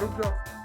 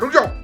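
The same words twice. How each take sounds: First: It is said softly and gently. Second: It is said loudly and commandingly.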